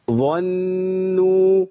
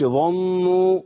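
First: ظنوا very slow with spread lips after the ẓa; ظنوا with the lips spread in a smile; smiling ẓa. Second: ظنوا with a rounded o after the ẓa; ظنوا wrongly darkened; wrong rounded vowel. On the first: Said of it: "بعمل ابتسامة بعد الظاء". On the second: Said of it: "ما تنفعش خالص". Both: Shown as a demonstration.

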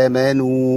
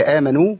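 First: آمنوا with two equal long vowels; slow, evenly stretched آمنوا; balanced long vowels. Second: Said in the usual way. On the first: Shown as a demonstration. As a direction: hold first and last vowel of آمنوا two counts each. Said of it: "حركتين في الأول وحركتين في الآخر". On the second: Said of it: "هي آمنوا ولا آمنوا؟".

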